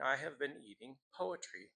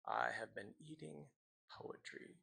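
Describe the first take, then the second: First: Voiced, measured line of verse; poetry reading. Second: Fading into a near whisper; hushed poem ending. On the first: Teacher reads a poem to students, measured recital. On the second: Acted. Teacher closes the poem for students, fading to whisper. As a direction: let the last line die away, pause before the final word.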